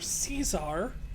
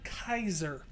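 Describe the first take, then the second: First: The name begins with an S sound. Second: The name begins with a K sound. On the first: "It's either Caesar" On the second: "or Kaiser, and you're saying Kaiser"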